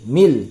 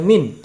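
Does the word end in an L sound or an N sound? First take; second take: L sound; N sound. First: The final n merges into an l sound. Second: The word ends with a clear n sound. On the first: The speaker calls it right. "dibaca mil" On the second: The speaker calls it wrong. "tidak lagi dibaca min"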